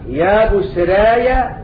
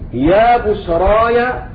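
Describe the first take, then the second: First: The long a vowel leans strongly toward ee. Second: The long a vowel stays fully open. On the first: "والإمالة" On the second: "الفتح"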